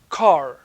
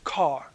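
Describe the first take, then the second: First: The final r sound is clearly pronounced. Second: The final r sound is not pronounced. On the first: This is the prestige form in New York. "In New York, you pronounce the R" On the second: This is the prestige form in England. "in England, the prestige norm is not to pronounce the R"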